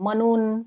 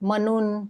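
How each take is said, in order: The two takes are said the same way.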